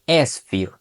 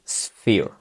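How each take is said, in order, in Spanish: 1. Hay un sonido e extra antes de la s. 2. La palabra empieza directamente con el sonido s. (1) "no tendremos que añadir la E al inicio" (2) "tendremos que decir sphere"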